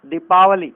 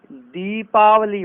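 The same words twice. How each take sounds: First: दीपावली begun with short "di"; wrong short vowel. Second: दीपावली slowly, with long "dee"; correct long vowel. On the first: Teacher showing the error, दीपावली with short first i. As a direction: say दीपावली as "dipaavali", loud. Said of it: "दीपावली नहीं होता है". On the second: Teacher correcting it, दीपावली slow with long first ee. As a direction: stretch the first syllables of दीपावली. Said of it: "दीपावली होता है". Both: Shown as a demonstration.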